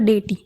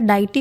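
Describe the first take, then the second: First: The first syllable sounds like 'day'. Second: The first syllable sounds like 'die'. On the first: "दो pronunciation है" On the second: "दो pronunciation है"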